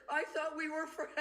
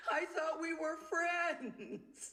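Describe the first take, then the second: First: Higher, pleading "I thought we were friends"; pitiful plea. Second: Much higher and very slow, a hurt whimper; slow pitiful plea. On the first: Wife confronting her friend, pitiful and pleading. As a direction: sound wounded and small. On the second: Wife repeating her words to the friend, slow and pitiful. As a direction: stretch it out, heartbroken. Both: Retold or imitated. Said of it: "It sounded so pitiful".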